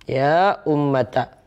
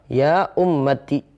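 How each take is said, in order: First: The last word ends with an a vowel. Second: The last word ends with an i vowel. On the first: "bisa fathah" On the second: "Taknya itu bisa kasrah"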